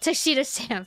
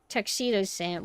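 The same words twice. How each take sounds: First: The name is said at a quicker pace. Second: The name is said at a slower pace.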